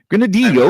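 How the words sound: The word is said with Spanish sounds.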